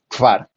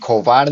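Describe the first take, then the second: First: K and v are said together with no vowel. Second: An o vowel is inserted between k and v. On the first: The speaker calls it right. "aquí la pronunciación es kvar. Nuevamente" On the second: The speaker calls it wrong. "ni kovar"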